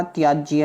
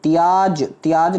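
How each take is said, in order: First: "त्याज्य" with a final jya; correct "त्याज्य". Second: "त्याज" ending on bare j; wrong "त्याज". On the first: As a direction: add the y glide at the end of त्याज्य. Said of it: "होता है". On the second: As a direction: stop त्याज at the j, no ya. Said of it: "नहीं होता". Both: Shown as a demonstration.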